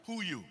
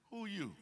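First: Higher, louder, blunt who are you; louder mock bewildered question. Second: Higher, puzzled who are you; imitating everyday puzzled talk; mock bewildered question. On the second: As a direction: ask as if to a stranger. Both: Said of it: "that's how we talk".

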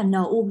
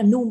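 First: "n um" in two separate pieces; split pronunciation. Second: "num" said as one syllable; joined pronunciation. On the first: Teacher naming a rejected answer, "n um" split. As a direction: detach the n from "um" in "n um". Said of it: "n um thì không cho điểm". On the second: Teacher naming an accepted answer, "num" blended. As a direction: run the n into "um" to form "num". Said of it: "viết là num vẫn cho điểm". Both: Shown as a demonstration.

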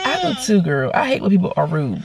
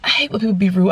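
First: Mildly fed-up, dropping low by the end; annoyed agreement. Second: Lightly voiced sweet girl; sweet young girl. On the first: Retold or imitated. Annoyed customer agreeing with young receptionist, low and weary. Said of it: "I'm just annoyed right now". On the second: Young receptionist siding with the customer, mildly girlish. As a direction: imitate a young clerk, sympathetic. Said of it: "sweet little young girl".

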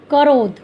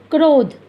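First: करोध read as ka-rodh, with a full vowel after क; misspelled reading. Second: क्रोध read as krodh, with क and र joined into one cluster; correct reading. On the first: Teacher reading the wrong spelling करोध to students, ka-rodh. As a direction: say करोध in two syllables, ka-rodh. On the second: Teacher reading the correct spelling क्रोध to students, krodh. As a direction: say क्रोध as a single syllable, krodh. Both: Shown as a demonstration. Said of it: "अशुद्ध में से शुद्ध शब्द बनाए जाते हैं".

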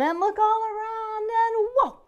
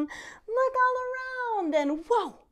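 First: Rising higher and louder to a whoa; excited build. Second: Much higher, slow, swelling to whoa; excited build. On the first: Binocular game, building excitement. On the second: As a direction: stretch it out in wonder. Binocular game repeated. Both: Acted.

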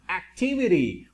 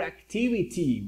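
First: ACTIVITY with the last T tapped like an R. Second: ACTIVITY with a crisp final T; clear T. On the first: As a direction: say "activity" ending in -vi-ree. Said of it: "se intenta pronunciar un poco como la R". ("activity" con la última T como R suave) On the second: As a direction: say "activity" ending in a clear -vi-tee. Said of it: "It's up to you guys". ("activity" con la última T bien marcada) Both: Shown as a demonstration.

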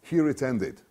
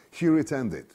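Both takes have the same delivery.

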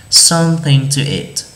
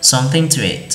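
First: Something to eat, every t sounded clearly; careful t. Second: Quick Something to eat, the t barely touched; fast, soft t. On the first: Thầy đọc chậm cho học sinh nghe rõ âm t. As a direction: say each t in Something to eat crisply and fully. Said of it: "Listen to the difference". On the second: Thầy đọc nhanh kiểu Mỹ, âm t nuốt gần mất. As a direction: run Something to eat together so the t nearly vanishes. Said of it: "Khi mà chúng ta đọc nhanh ấy ... không đọc rõ cái âm t". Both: Shown as a demonstration.

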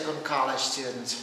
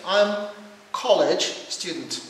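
First: Slow General American delivery; American accent. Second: Slow British English, clearly stressed; British accent. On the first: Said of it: "And American would say". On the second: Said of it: "this is American accent and British accent". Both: Shown as a demonstration.

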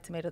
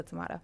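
First: "tomato" with an AY vowel, tuh-MAY-toh; variant pronunciation. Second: "tomato" with an AH vowel, tuh-MAH-toh; variant pronunciation. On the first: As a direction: say "tomato" the American way, MAY in the middle. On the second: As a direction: say "tomato" the British way, MAH in the middle. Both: Shown as a demonstration. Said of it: "you can pronounce what it is".

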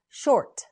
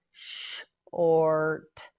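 First: Said in the usual way. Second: "Short" slowly, long hissed sh held apart; slow sounding-out. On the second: Shown as a demonstration. Teacher models word slowly in parts.

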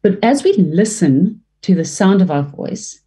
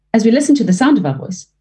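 First: Said in the usual way. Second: Brisk rerun of the line; faster repeat. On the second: Shown as a demonstration. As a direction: speed the same line up. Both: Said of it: "say the same thing over and over".

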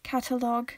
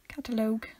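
First: "Catalogue" with a short, open final "log"; short final syllable. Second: "Catalogue" with the last syllable as "loag"; long final O. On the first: Testing the pun on the cat word, "Catalogue" ending in "log". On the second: Testing the pun on the cat word, "Catalogue" ending in long-O "loag". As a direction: stretch the O at the end of "Catalogue". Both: Shown as a demonstration. Two deliberately different takes of word.

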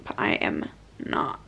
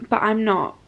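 First: Whispered under breath. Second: Said in the usual way. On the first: Shown as a demonstration. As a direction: whisper it to yourself. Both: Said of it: "repeated, second whispered".

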